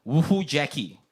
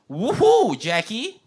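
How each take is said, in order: First: "Woohoo, Jackie." said level and deadpan, no exclamation; flat woohoo. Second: High, loud woohoo with an exclamation mark; excited cheer. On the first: Host rereading the chat message, deadpan and flat. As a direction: read it dry and unenthused. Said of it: "it's more like". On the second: Host reading a chat message as an excited cheer. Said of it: "with no exclamation mark". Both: Shown as a demonstration.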